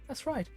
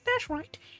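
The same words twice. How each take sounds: First: It is said in the speaker's normal voice. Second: It is said in an imitation of Bell's voice.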